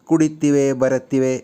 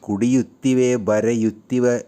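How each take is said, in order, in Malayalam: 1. ഓരോ ക്രിയയിലും 'yu' എന്ന അക്ഷരം ഒഴിവാക്കപ്പെടുന്നു. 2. ഓരോ ക്രിയയിലും 'yu' എന്ന അക്ഷരം വ്യക്തമായി ഉച്ചരിക്കുന്നു.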